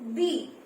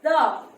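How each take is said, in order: First: The word ends in a long ee sound. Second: The word ends in a short uh sound. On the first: The next word begins with a vowel sound. "before any vowel, we will, uh, when we will use the, we will always pronounce it as the" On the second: The next word begins with a consonant sound. "before any consonant, any word which begins with a consonant, we will always pronounce the"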